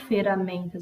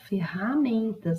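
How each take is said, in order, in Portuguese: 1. O R do meio é um som fraco. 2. O R do meio é um som forte. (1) "Eu não falo ferramentas" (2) "eu falo ferramentas. O R é forte"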